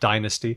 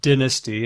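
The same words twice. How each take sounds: First: The first vowel is long and tense. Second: The first vowel is short and lax. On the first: This is the American form. "American English just keeps the tense versions" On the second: This is the British form. "in British English, it's more likely to lax"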